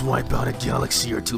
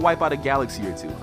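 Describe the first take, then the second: First: The voice is altered by an added effect. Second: The voice sounds natural, without any added effect.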